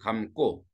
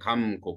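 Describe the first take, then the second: First: The second syllable starts with a tense kk. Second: The second syllable starts with a plain g. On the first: The speaker calls it right. "감 꼬로 발음해야지" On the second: The speaker calls it wrong. "원래 감 고"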